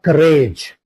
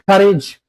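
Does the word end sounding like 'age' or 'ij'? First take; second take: age; ij. First: The ending is a full 'age' sound. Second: The ending is a short 'ij' sound. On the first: The speaker calls it wrong. "not courage" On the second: The speaker calls it right. "it will be pronounced as ij"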